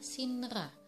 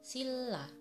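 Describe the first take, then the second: First: The middle consonants sound like n and r. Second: The middle consonants sound like a double l. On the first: The speaker calls it wrong. "harusnya dibaca sinra" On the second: The speaker calls it right. "yang benar pengucapannya adalah silla"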